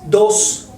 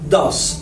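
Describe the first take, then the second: First: The vowel sounds like a rounded 'oh'. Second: The vowel sounds like an open 'ah'. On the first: The speaker calls it wrong. "No es dos, porque mucha gente dice dos" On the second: The speaker calls it right. "es da, da. Vamos a abrir un poco más la boca"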